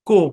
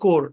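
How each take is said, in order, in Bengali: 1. শেষের r ধ্বনি বাদ যায়। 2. শেষের r ধ্বনি উচ্চারণ করা হয়। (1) "ব্রিটিশরা এখানে আর টা উচ্চারণ করে না। কো এভাবে বলে।" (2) "আমেরিকানরা বলে কোর"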